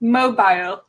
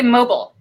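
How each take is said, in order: First: "Mobile" as MOH-bile, with a long i; attempted British pronunciation. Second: "mobile" as MOH-bul, short second syllable; "mobile" with the ending reduced to bl; American pronunciation. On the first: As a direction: try British "Mobile", second syllable like bile. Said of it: "try and say mobile then". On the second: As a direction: say American "mobile", rhyming with noble. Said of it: "I say mobile". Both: Shown as a demonstration.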